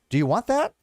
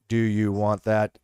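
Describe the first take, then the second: First: The pitch rises at the end. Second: The pitch stays flat or falls at the end. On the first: It is asked as a question. "sometimes you raise your pitch" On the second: It does not sound like a question. "Doesn't sound much, like much of a question"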